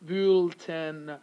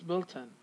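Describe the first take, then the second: First: The unstressed vowels are full, not reduced. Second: The unstressed vowels are reduced to schwa. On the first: The speaker calls it wrong. "some people are going to say Bulletin" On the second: The speaker calls it right. "we have a schwa here, and we have a schwa here"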